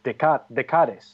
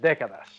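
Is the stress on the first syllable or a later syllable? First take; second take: later; first. First: The stress is on a later syllable. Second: The stress is on the first syllable. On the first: The speaker calls it wrong. "is actually what I did" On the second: The speaker calls it right. "Because the accent is on the E"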